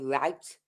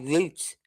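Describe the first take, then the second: First: It is said the way Americans say it. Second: It is said the speaker's own non-American way. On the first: "They say route" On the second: "and we say route"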